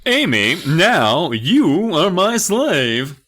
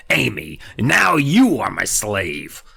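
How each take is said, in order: First: High, loud, slow dragged-out dummy voice; Slappy's new voice. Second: Slow, lightly New England dummy rasp. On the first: To Amy, the dummy announces she is his slave in a slow, loud high rasp. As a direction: stretch every word out like a creepy dummy. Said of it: "That's his, that's his new voice". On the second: To Amy, the dummy retries his line with a slow New England lilt. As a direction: drawl it slowly with a hint of New England. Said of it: "I was going for, like, a New England-y". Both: Acted.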